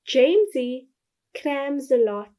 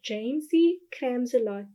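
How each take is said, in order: First: The words are said slowly and deliberately. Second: The words are said at a normal, quick pace.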